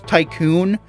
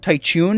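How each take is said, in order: First: The middle consonant is a plain k sound. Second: The middle consonant is a ch sound. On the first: This is the name's real form. The speaker calls it right. "I think it's Tycoon" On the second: The name is twisted on purpose out of dislike. The speaker calls it wrong. "I'm going to call him Tychoon because I don't like him"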